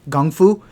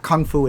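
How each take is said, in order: First: The word starts with a soft g sound. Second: The word starts with a hard k sound. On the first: The speaker calls it right. "It's gung fu" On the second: The speaker calls it wrong. "It's not kung fu"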